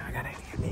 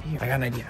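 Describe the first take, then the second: First: Whispered idea. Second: Said in the usual way. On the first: Real, not acted. Hiding from the intruder, whispering the plan. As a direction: drop to a whisper. Hiding, quietly planning next move.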